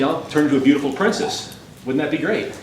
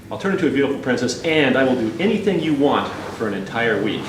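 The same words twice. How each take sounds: First: Lightly muffled, coaxing frog; calling from inside a pocket. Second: Quick, mildly exasperated pleading; frustrated. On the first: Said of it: "this muffled voice from inside his pocket". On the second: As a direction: hurry the offer, a touch fed up. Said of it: "a more frustrated voice starts to emanate". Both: Acted.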